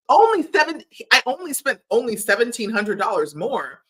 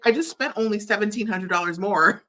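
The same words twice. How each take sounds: First: Higher and louder, mocking his excuse in disbelief; indignant mock repeat of the boyfriend's line; outraged mocking repeat. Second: Said in the usual way. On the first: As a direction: throw his words back at him, incredulous.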